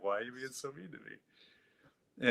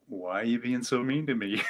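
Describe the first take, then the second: First: Slow, hushed, much softer and wounded; small hurt plea. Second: Asked through a laugh; laughing question. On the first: Shown as a demonstration. Man reenacting how he pleaded with his inner voice, hushed and hurt. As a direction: plead softly and slowly like a hurt child. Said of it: "That's exactly how I said it". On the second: Retold or imitated. Man laughing as he asks his inner voice why it's mean. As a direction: laugh while pleading with the inner critic.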